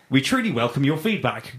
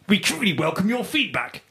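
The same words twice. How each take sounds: First: It is said in a plain, normal voice. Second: It is said in an odd, put-on voice.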